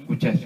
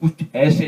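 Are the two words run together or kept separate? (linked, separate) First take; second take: linked; separate. First: The final consonant runs into the next word. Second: The two words are kept apart with a break. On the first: The speaker calls it right. "जब किसी साकिन हर्फ के बाद अलिफ आए तो वो मुतहर्रिक हो जाता" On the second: The speaker calls it wrong. "यानी कुछ ऐसे नहीं"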